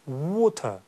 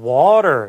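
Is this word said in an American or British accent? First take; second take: British; American. First: The first vowel is rounded and dark, British style. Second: The first vowel is wide open, American style. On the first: "영국식의 이 c가 거꾸로 된 이 발음은... 열리지 않고 닫힌 채로" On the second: "미국식 발음은 이제 w에 w가 있고 그 다음 뒤에는 굉장히 많이 입이 열려요"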